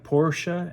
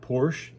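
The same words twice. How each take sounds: First: Porsche is said the non-American way. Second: Porsche is said the American way. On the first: The speaker calls it right. "it's like Porsche" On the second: The speaker calls it wrong. "Americans who call it Porsche"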